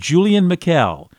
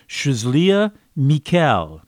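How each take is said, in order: First: The name is said with English pronunciation. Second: The name is said with French pronunciation. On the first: The speaker calls it wrong. "that's how we English speakers would say it" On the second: The speaker calls it right. "it's really"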